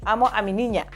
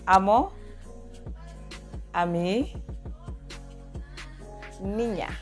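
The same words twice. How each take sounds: First: The phrase is said at normal speed. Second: The phrase is said slowly.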